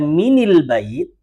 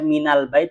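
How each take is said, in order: First: The linking vowel after min is i. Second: The linking vowel after min is a. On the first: The speaker calls it wrong. "nggak enak" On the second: The speaker calls it right. "Enak yang mana? Minal"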